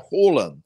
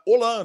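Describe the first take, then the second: First: The name begins with a consonant sound. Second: The name begins with a vowel sound. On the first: The way the man himself says his name. "mas é Roland, que é a pronúncia dele" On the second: The usual Spanish reading of the spelling. "se fosse o normal, era Holan... o H em espanhol, ele não tem som de nada"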